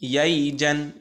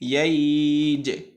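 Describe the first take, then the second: First: The glide is said quickly and the word continues. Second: The glide is stretched and the word ends stopped. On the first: The reader carries on without stopping. "যদি আমরা না থামি" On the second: The reader stops on this word. "আর যদি থেমে যাই"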